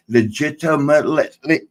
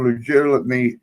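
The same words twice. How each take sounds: First: Legitimately retried carefully without teeth; second try at legitimately; toothless. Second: Mumbled without teeth; slurred toothless legitimately. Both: Real, not acted. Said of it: "man, I can't talk with no teeth".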